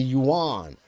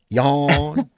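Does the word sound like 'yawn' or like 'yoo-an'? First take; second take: yoo-an; yawn. First: It is said as two syllables, 'yoo-an'. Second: It is said as one syllable, like 'yawn'. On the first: The speaker calls it right. "It's the yuan" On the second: The speaker calls it wrong. "You want to be all southern and be like yawn. And it's not yawn"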